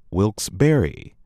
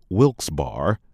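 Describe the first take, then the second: First: Wilkes-Barre ending like "berry"; Wilkes-Barre as three syllables, "WILKS-bear-ee"; correct local pronunciation. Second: Wilkes-Barre ending like the word "bar"; Wilkes-Barre as two syllables, "WILKS-bar"; mispronounced. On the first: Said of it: "but rather". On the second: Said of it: "It is not". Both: Shown as a demonstration.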